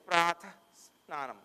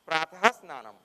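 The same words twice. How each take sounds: First: The final h of pratah is barely sounded. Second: The final h of pratah is clearly sounded. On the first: It is recited in the middle of a verse. "In verses where they come in the middle, we don't say. You just say pratah snanam" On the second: It is read as prose. "in prose form, like you read in a sentence, you could pronounce pratah snanam"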